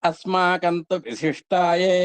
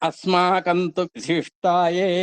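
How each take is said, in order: The two takes are said the same way.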